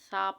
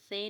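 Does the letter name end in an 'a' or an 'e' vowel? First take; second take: a; e. First: The name ends in an open 'a' vowel. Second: The name ends in an 'e' vowel. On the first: The speaker calls it right. "सा पढ़ना है" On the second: The speaker calls it wrong. "तो इसको से नहीं पढ़ना"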